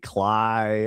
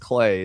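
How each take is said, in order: First: The name is said with an 'eye' vowel. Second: The name is said with an 'ay' vowel. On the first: The speaker calls it wrong. "all kinds of shit like that" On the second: The speaker calls it right. "the reason I know it's Clay"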